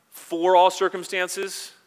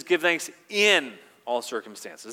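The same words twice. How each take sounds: First: "for all circumstances" slow, higher, louder, "all" stretched; stress on wrong word. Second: "in" held long and pressed in "Give thanks in all circumstances", slow; slow down and dwell on "in"; stress on IN. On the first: Preacher showing the wording Paul did not use, slow stressed "all". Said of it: "he doesn't say". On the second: Preacher pointing out Paul's exact word, pressing "in". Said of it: "He says". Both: Shown as a demonstration.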